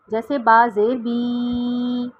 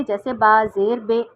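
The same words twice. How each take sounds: First: بی dragged out long, drawn slowly; stretched wrong reading. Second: بے with a long e sound, not بی; majhool vowel, wrong. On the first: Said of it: "کھینچ کے نہیں پڑھتے". (با زیر بی کو کھینچ کر، آہستہ) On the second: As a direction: say با زیر بے with the majhool e. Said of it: "مجھول نہیں پڑھتے". (بے مجہول آواز میں، غلط) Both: Shown as a demonstration.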